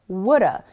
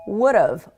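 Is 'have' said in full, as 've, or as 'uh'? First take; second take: uh; ve. First: Have is reduced to a weak uh sound. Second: Have is reduced to a short ve sound. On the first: It sounds casual and native-like. "woulda is a little more casual" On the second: It sounds fairly professional. "sound a little more professional"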